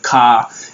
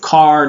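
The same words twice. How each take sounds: First: It is said in a British accent. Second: It is said in an American accent. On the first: "in contrast to British" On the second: "car instead of car"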